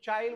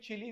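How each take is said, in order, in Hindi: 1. इसका उच्चारण एक अक्षर में होता है: chyle। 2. इसका उच्चारण दो अक्षरों में होता है: chee-lee। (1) "इसको चाइल बोला जाता है" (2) "कई लोग हिंदी में चिली भी बोलते हैं"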